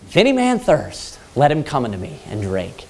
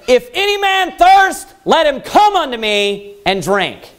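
First: It is said calmly and softly. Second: It is yelled loudly.

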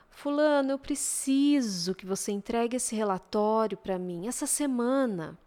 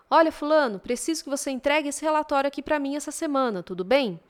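First: It is said slowly with drawn-out vowels. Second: It is said briskly with short vowels.

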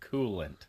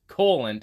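First: The word sounds like standard 'coolant'. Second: The word sounds much like 'colon'. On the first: The speaker calls it right. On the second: The speaker calls it wrong.

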